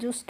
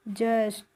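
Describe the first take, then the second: First: The vowel sounds like 'oo' in 'put'. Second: The vowel sounds like 'uh' in 'cup'. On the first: The speaker calls it wrong. "जस्ट नहीं पढ़ते हैं" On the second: The speaker calls it right. "इसको हम पढ़ते हैं जस्ट"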